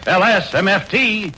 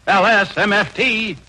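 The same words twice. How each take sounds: The two takes are said the same way.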